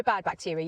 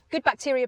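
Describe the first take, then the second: First: Said in the usual way. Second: Good lifted high and loud in "Good bacteria"; stress on good. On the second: Shown as a demonstration. Contrasting good with bad, stress on Good. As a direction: punch the word Good, higher and louder.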